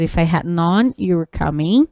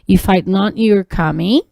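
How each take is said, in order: First: 'Had' is said in full as its own word. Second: 'Had' is contracted to a short 'd' sound. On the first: "Que é a mesma coisa" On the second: "ele está na forma contraída, a gente inclusive até muda na pronúncia"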